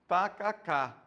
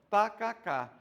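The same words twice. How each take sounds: No difference in how they are said.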